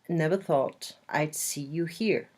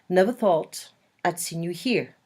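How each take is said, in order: First: There is no added n sound before 'you'. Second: An added n sound links 'see' to 'you'.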